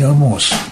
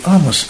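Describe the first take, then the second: First: The stress is on the last syllable. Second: The stress is on the first syllable. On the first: "а не «Амос»" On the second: "говорю «Амос»"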